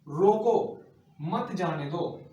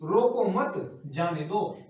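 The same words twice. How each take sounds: First: A short pause comes after the first word. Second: A short pause comes after the second word. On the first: Stop him, do not let him go. "रोको के बाद में क्या लगाया? अल्पविराम चिन्ह लगा दिया" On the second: Do not stop him, let him go. "रोको मत मतलब"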